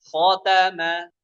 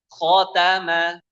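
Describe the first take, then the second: Both takes have the same delivery.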